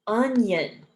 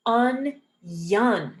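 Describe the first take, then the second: First: Said in the usual way. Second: "onion" split slowly as un-YON; syllable by syllable. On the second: Shown as a demonstration. Teacher breaking down a word, slow split "onion". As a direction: break "onion" in two, with a clear Y. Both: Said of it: "we pronounce it as a Y".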